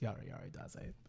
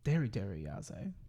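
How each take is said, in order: First: The first two words start with a Y sound. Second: The first two words start with a D sound. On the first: The speaker calls it right. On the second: The speaker calls it wrong. "which is not how you say it"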